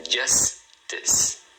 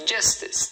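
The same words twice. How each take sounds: First: "justice" split into JUS, pause, TIS; "justice" in two separate beats, silent final E; two syllables. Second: Said in the usual way. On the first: Shown as a demonstration. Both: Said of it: "Duas sílabas".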